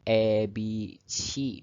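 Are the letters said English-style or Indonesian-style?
English-style. The letters are said with English-style vowel sounds. The speaker calls it wrong. "tidak E B C misalnya"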